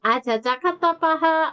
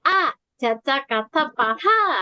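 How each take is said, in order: First: The phrase is said flat, without melody. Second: The phrase is said with a little melody.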